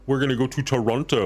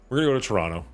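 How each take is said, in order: First: Toronto is said with an outsider's pronunciation. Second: Toronto is said with the local pronunciation. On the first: This is how people from elsewhere say it. The speaker calls it wrong. "that's how they pronounce it. Like Toronto" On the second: This is how local people say it. The speaker calls it right. "nobody here says that. It's Toronto"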